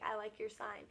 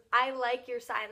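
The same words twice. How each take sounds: First: Softer, understated retelling of a mouthed remark; lightly imitated silent mouthing, voice lowered in volume; imitating mouthed words. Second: Said in the usual way. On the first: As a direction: say it softly, as if only mouthing it. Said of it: "but he, like, mouths it". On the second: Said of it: "He pointed to our sign and goes".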